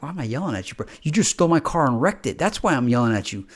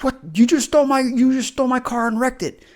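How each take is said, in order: First: Said in the usual way. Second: Angry yell. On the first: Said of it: "you're like". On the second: Retold or imitated. Confronting the person who wrecked your car, yelling. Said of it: "yell at them about it".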